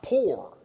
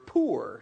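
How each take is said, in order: First: The vowel sounds like the word pour. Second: The vowel does not sound like pour. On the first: The speaker calls it wrong. "not poor" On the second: The speaker calls it right. "If you have no pitcher, you're poor"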